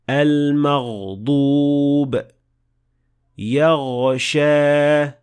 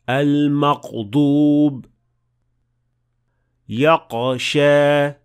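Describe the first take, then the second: First: The throat consonant flows smoothly and continuously. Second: The throat consonant stops abruptly like a k. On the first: The speaker calls it right. "the sound of ghain should flow smoothly and it has the ability to continue" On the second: The speaker calls it wrong. "the sound will stop and it will sound more like a qaf"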